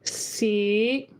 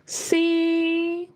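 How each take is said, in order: First: Tone five, floating up at the end. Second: Tone one, with a very high pitch. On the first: "tone five ... Let it float up a little bit at the end" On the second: "first tone C ... very high pitch"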